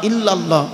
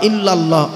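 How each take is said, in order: No difference in how they are said.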